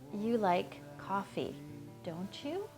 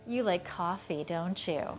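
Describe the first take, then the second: First: The pitch rises on the final tag. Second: The pitch falls on the final tag. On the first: The speaker does not know and is asking to find out. "the tag goes up" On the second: The speaker believes the listener likes coffee. "I'm going down"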